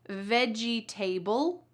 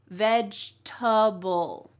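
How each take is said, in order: First: The word ends with a full, separate 'table'. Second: The 'table' ending is reduced and run together. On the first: The speaker calls it wrong. "So do we say veggie table? Nope" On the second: The speaker calls it right. "Instead, we say vegetable"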